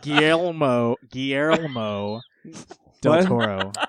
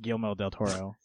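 First: The name is said at a slower pace. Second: The name is said at a fast pace.

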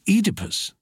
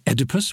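First: The first vowel is long. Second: The first vowel is short. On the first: This is the British way. "we say Oedipus" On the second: This is the American way. "They say Oedipus"

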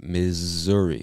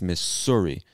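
First: The middle consonant is a buzzing Z sound. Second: The middle consonant is a hissing S sound. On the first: The speaker calls it right. "we pronounce it Missouri with like a Z sound" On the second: The speaker calls it wrong. "you see the two S's and you might think it's Missouri"

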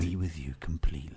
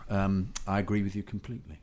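First: It is said in a put-on, altered voice. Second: It is said in the speaker's natural voice.

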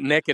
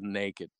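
First: It is said the Southern way, like nekkid. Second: It is said the standard way, like nay-kid.

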